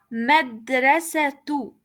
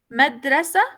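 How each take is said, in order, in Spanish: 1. La palabra termina con un sonido 'tu' añadido. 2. La palabra termina en un sonido 'a' simple. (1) "voy a pronunciar la palabra madrasatu" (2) "madrasa, no"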